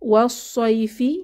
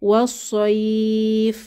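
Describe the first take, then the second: First: The word ends on a short final vowel. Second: The soft vowel is stretched, ending on f.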